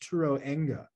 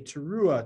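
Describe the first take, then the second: First: The word is said with an ng sound. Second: The word is said without an ng sound. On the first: The speaker calls it wrong. "it's not to be pronounced that way, even though that is how it's pronounced phonetically" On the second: The speaker calls it right. "it doesn't say Teruah to our, to our eyes"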